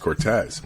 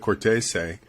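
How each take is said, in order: First: The name is pronounced the Americanized way. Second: The name is pronounced the Italian way. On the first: This is the form the grandfather adopted to sound American. "he says Cortez" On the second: This is the family's original form of the name. "which is more the Italian pronunciation"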